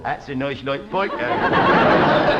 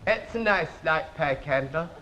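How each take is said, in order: First: "That's a nice light pike handle" pitched much lower and slow, laughing; overdone posh. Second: Much lower and softer, mumbled plummy tone; the king's voice. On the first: Acted. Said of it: "The king doesn't talk like that". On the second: Retold or imitated. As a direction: mumble it low like a lazy king. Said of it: "He talks like this".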